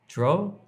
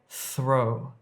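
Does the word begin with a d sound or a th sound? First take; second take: d sound; th sound. First: The word begins with a hard d sound. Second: The word begins with a soft th sound. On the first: The speaker calls it wrong. "Don't say dro if you're trying to say throw" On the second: The speaker calls it right. "trying to say throw"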